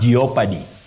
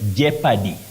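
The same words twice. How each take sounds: First: The O in the middle is sounded. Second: The O in the middle is silent. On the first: The speaker calls it wrong. "not jeopardy" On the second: The speaker calls it right. "you say jeopardy"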